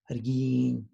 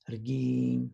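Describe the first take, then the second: First: "argin" said carefully for learners; Zapotec word. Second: "argin" repeated with falling tone; Zapotec word repeated. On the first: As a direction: model "argin" slowly. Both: Shown as a demonstration. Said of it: "join me in saying the words".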